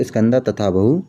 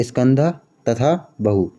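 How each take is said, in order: First: स्कंद तथा बहु run together as one smooth phrase; now join स्कंद तथा बहु without pauses; smooth joined model of स्कंद तथा बहु; said smoothly. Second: स्कंद, pause, then तथा बहु said slowly; careful slow breakdown of स्कंद तथा बहु; split into parts. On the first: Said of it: "ऐसे बोलो". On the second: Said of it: "इसको पढ़ते हैं अपन स्कंद". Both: Shown as a demonstration.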